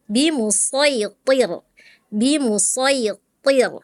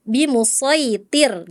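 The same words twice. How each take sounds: First: BIMUSAITIR with a thick t, tongue root raised; correct heavy to. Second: BIMUSAITIR with a thin, light t. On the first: Shown as a demonstration. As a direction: slowly thicken TIR in BIMUSAITIR. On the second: Retold or imitated. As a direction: imitate the student's light TIR in BIMUSAITIR.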